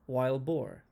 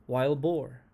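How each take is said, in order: The two takes are said the same way.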